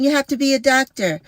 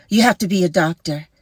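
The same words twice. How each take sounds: First: Higher, faster mocking tone; mock high fast scolding. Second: Said in the usual way. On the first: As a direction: parody the know-it-all, quickly.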